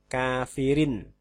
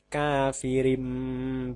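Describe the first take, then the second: First: The word ends with an n sound. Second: The word ends with an m sound. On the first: The speaker calls it wrong. "bukan kafirin" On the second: The speaker calls it right. "tapi kafirim bih"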